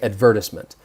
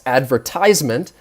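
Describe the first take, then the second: First: It is said with a British pronunciation. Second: It is said with an American pronunciation. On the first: "In British English, you would say" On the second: "I would say in the U S"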